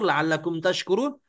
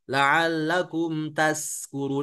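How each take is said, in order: First: The last word has a sh sound. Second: The last word has a thin s sound. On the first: So that you give thanks. The speaker calls it right. "pakai shin" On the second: So that you get drunk. The speaker calls it wrong. "kalau hurufnya terlalu tipis"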